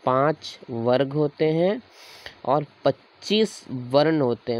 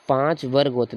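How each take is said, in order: First: Slow, deliberate dictation pace. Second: Said in the usual way. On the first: Shown as a demonstration. Teacher dictating to students as they write, slowly. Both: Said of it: "देखो ऐसे लिखो".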